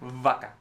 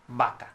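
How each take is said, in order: First: The word begins with a V sound. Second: The word begins with a B sound. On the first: The speaker calls it wrong. "we don't say vaca. That doesn't exist in Spanish" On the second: The speaker calls it right. "We say vaca"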